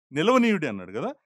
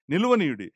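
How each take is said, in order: First: నిలవనీయుడి lifted with a rising question tune; word pointed out. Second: నిలవనీయుడి said alone, a little louder, falling firmly; word repeated for emphasis. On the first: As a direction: raise నిలవనీయుడి as if asking them to notice it. (నిలవనీయుడి ను ప్రశ్నలా ఎత్తి పలకండి) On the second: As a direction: land నిలవనీయుడి with a firm final drop. (నిలవనీయుడి ను గట్టిగా దిగే స్వరంతో ఒత్తి చెప్పండి) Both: Shown as a demonstration. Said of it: "అది మీలో".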